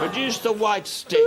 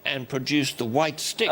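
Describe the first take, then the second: First: Repeated through real laughter; can't get the words out without laughing; laughing as he says it again. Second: Said in the usual way. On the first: Real, not acted.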